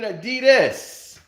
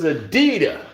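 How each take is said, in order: First: The word ends with an s sound. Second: The word ends without an s sound. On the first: The speaker calls it wrong. "It wasn't even Adidas" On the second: The speaker calls it right. "There's no S in that pronunciation"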